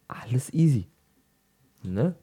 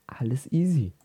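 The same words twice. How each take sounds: First: Whispering. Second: Said in the usual way. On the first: Shown as a demonstration. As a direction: whisper the same words. Repeated as whisper.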